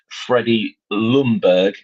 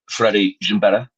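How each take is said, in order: First: The surname is pronounced with English sounds. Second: The surname is pronounced with Swedish sounds. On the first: "you change Freddie Ljungberg" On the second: "to Freddie Ljungberg"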